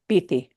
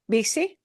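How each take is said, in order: First: The middle consonant is a th sound. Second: The middle consonant is an s sound. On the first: This is how it sounds in Spain. "Spain Spanish" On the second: This is how it sounds in Latin America. "Latin American Spanish"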